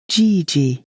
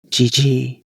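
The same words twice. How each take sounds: First: The vowels are held long. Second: The vowels are short. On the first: It is an affectionate word for grandfather. The speaker calls it right. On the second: It is an insult for an old man. The speaker calls it wrong.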